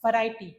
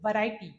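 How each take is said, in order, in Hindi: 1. यह दाँत-होंठ वाली v ध्वनि से शुरू होता है। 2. यह दाँत-होंठ वाली v ध्वनि से शुरू होता है।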